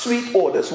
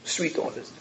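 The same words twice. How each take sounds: First: Said in the usual way. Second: "Sweet odors" breathed in a soft whisper; whispered echo. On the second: Acted. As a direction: savour "Sweet odors" in a hush, no voice. Preacher echoes phrase hushed.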